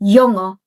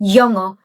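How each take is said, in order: No difference in how they are said.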